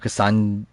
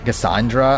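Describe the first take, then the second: First: The final syllable of the name is dropped. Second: The final syllable of the name is pronounced.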